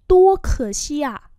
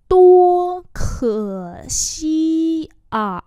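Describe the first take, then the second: First: Said in the usual way. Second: Tua khở xi à slow, high and loud; slow demonstration. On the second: Shown as a demonstration. Teacher repeats "Tua khở xi à" for learners, very slowly. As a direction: stretch each syllable of Tua khở xi à.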